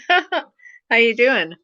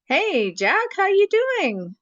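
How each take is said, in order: First: Numb mouth, very slow and louder; laugh, then force words through numb lips; numb from the dentist. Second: Numb mouth, slow, higher; numb from the dentist. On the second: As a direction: talk through a frozen numb mouth. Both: Real, not acted. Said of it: "My mouth is frozen here and here".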